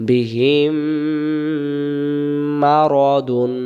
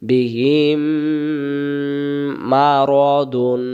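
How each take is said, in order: The two takes are said the same way.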